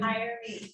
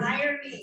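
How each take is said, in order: First: It is said at a normal, softer volume. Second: It is said loudly and with force.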